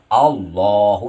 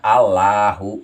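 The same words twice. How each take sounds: First: The doubled l is said heavy and dark. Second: The l is said light and thin. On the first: The speaker calls it right. "dibacanya tebal dan disidahkan" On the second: The speaker calls it wrong. "jangan Allahu gitu ya"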